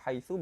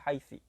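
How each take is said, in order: First: The word ends in an u vowel. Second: The word ends in an i vowel. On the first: "bisa dibaca dhammah" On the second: "bisa dibaca kasroh"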